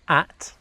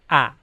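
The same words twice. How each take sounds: First: The word ends with a clear T sound. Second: The word is an ah sound without T. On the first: The speaker calls it right. "instead of saying at" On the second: The speaker calls it wrong. "So just an ah sound with a downward inflection"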